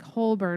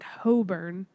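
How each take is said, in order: First: The L sound is pronounced in the name. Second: The L sound is dropped from the name. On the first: "doesn't sound like Holborn, which is H O L B O R N" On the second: "It sounds like Hoburn"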